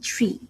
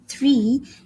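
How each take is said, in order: First: It begins with a hard t sound. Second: It begins with a soft th sound. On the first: The speaker calls it wrong. "it would sound like I'm saying tree" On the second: The speaker calls it right. "instead of saying three"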